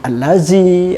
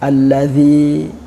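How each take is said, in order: First: The middle consonant is a plain z sound. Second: The middle consonant is a soft th sound. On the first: The speaker calls it wrong. "Jangan sampai murid itu membaca allazi dengan allazi" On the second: The speaker calls it right. "Misalnya za"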